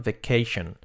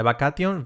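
First: VACATION as "vei-KEI-shon", falling; model pronunciation. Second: VACATION read the Spanish way, "ba-ka-tyon"; wrong pronunciation. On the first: Teacher giving learners the model, correct pronunciation. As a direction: say VACATION with a "sh", "veh-KAY-shon". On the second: Teacher showing learners the mistake, wrong pronunciation. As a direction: say VACATION "bah-kah-tyon". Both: Shown as a demonstration. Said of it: "Nada de vacation".

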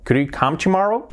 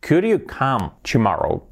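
First: Said in the usual way. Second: Slow, word-by-word teacher's example; slow model question. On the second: Shown as a demonstration. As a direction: model the question slowly for learners. Teacher models question slowly, then naturally. (pregunta modelo, despacio)

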